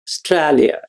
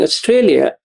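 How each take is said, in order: First: It is said in an Australian accent. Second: It is said in a non-Australian accent. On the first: "I will now change that accent, ... that's how the Australians say Australia" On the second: "Instead of calling Australia"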